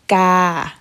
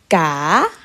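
First: The pitch stays level at a middle height. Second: The pitch rises over the syllable. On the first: "Middle tone" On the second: "And rising tone"

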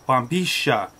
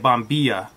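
First: The double L sounds like sh. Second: The double L sounds like y. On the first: This is how it is said in Argentina and Uruguay. "The double L is more like a sh or z sound" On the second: This is how it is said elsewhere in the world. "everywhere else in the world, they usually say bombilla"

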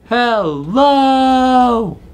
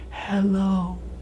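First: The word is said very loudly. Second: The word is said very quietly. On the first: "Let's say hello as loud as we can" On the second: "Let's say hello as quiet as we can"

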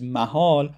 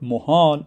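First: The first vowel is an open a sound. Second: The first vowel is a rounded u sound. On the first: It means place. "the first pronunciation of this word" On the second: It means impossible. "the second possibility of pronouncing this word muhal"

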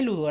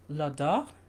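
First: The name is said with plain Spanish-style sounds. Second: The name is said with French-style sounds. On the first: The speaker calls it wrong. "ni se pronuncia Ludor" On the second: The speaker calls it right. "Creo que se pronuncia realmente L'odor"

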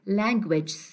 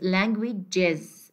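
First: The word ends without an extra 'iz' syllable. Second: The word ends with an extra 'iz' syllable. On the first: The speaker calls it wrong. "Don't say language" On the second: The speaker calls it right. "It is languages"

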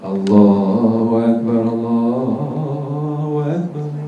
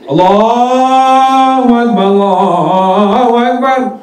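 First: It is said softly. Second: It is said loudly.

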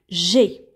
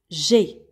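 First: The vowel of je is dropped entirely. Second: The same.

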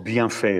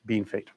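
First: The name is said a way locals don't use. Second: The name is said the usual local way. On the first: The speaker calls it wrong. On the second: The speaker calls it right.

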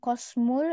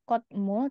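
First: The first syllable ends in an s sound. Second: The first syllable ends in a t sound. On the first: "Bacanya bukan bukan kosmul" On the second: "atau kotmul"

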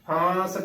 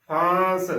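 No difference in how they are said.

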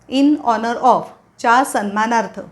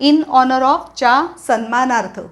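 The two takes are said the same way.

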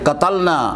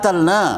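First: It starts with a q sound, Standard Arabic style. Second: The q sound is dropped, Egyptian style. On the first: "अरबी लहजा तो ये था कि" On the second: "मिस्री अपने लहजे में काफ को अलिफ बोलते हैं"

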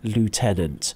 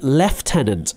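First: The first part is said as 'loo'. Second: The first part is said as 'left'. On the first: This is the American Army pronunciation. "I've heard the word lieutenant. Yes, that may well be true in the American Army" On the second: This is the British Army pronunciation. "in the British Army, we use a special pronunciation. We spell the word the same, but we say lieutenant"

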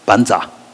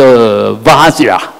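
First: The word starts with a B sound. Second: The word starts with a V sound. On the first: The speaker calls it wrong. "那个藏文就念成班扎啊" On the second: The speaker calls it right. "就好像我们最清楚的叫vajra"

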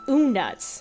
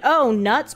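First: It is said in a spooky voice. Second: It is said in a normal voice.

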